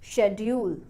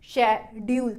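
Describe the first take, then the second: First: The first syllable carries clear stress. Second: Both syllables are said flat and equal, robot-like. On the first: "मैं शेड वाले part को stress के साथ बोलूंगी" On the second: "robot की तरह बोले"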